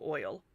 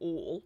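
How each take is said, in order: First: The vowel is a standard 'oy' glide. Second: The vowel is a plain southern 'o'.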